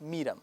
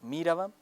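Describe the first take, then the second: First: The word is shortened to two syllables. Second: The word is said in full with three syllables. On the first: This is the shortened spoken form. "मुखफ़फ़ कर दिया जाता है" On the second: This is the written, formal form. "लिखेंगे आप तो मीरवम लिखेंगे"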